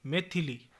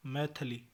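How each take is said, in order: First: Said in the usual way. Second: मैथिली without i after th; mispronunciation. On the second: Shown as a demonstration. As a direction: say maith-li for मैथिली. (मैथिली को मैथली बोलें) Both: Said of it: "मैथिली नहीं".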